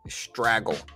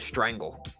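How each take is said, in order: First: The word is said without an n sound. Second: The word is said with an n sound. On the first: The speaker calls it wrong. "I thought you pronounced it straggle" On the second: The speaker calls it right. "only found out much later on that it was strangle"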